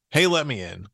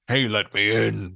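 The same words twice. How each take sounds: First: Said in the usual way. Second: Gravelly wolf at the door; low, gravelly wolf. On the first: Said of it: "But his voice is low and gravelly". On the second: Acted. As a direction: growl it low like the big bad wolf. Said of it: "his voice is low and gravelly".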